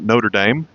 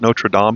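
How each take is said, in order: First: It is said with an American English pronunciation. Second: It is said with a French pronunciation. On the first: "in America we would call it" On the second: "I think they pronounce it"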